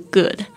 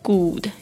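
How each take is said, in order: First: The vowel is said with relaxed, less rounded lips. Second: The vowel is said with fully rounded lips. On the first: It sounds more natural. The speaker calls it right. "比较好的发音是good" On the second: It sounds like a heavy foreign accent. The speaker calls it wrong. "但你讲good 也没有关系啦，就是说这会让觉得好像口音比较重啊"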